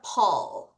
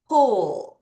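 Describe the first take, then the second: First: The vowel is an open 'uh' sound. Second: The vowel is a rounded 'oo' sound. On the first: The speaker calls it wrong. "U가 우리가 파닉스에서 배울 때는 어, 발음이라 그래서 얘가 파닉스라면" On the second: The speaker calls it right. "U 다음에 L이나 U 다음에 R이 올 때는 U가 U 발음이 더 많이 나거든요"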